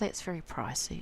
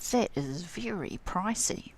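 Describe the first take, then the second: First: The tone is light and only mildly complaining. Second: The tone is dramatic and strongly complaining. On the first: The price is a bit more than one wants to pay. "it just means it's a bit more than I want to pay" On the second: One really does not want to pay that price. "you really don't want to pay that"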